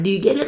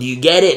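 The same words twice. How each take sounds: First: The question sounds warm and friendly. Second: The question sounds rude and condescending. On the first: The listener is addressed with affection. The speaker calls it right. "Like, my beautiful friend" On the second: The listener is being talked down to. The speaker calls it wrong. "I don't say this like, you know, ... in a rude way"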